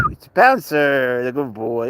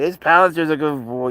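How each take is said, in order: First: Slow, drawn-out praise for the cat; a slow proud praise; pet praise. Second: Higher, louder pet praise; a brighter coo at the cat. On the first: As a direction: stretch out his name fondly. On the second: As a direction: lift it up, louder. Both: Shown as a demonstration.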